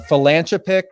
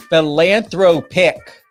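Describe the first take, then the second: First: "philanthropic" with th turned to t; Jersey-slurred "philanthropic". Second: "philanthropic" slowly sounded out by syllable; careful corrected "philanthropic". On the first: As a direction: stumble on "philanthropic," saying "philantropic". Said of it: "'cause sometimes my Jersey accent can". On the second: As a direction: hit every syllable of "philanthropic," th included. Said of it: "get it straight". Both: Real, not acted.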